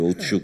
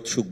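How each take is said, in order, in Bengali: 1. প্রথম স্বরধ্বনিটি 'ou' ডিফথং। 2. প্রথম স্বরধ্বনিটি সাধারণ 'u' ধ্বনি। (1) "ঔৎসুক না বলে" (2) "আমরা উৎসুক বলে ফেলি"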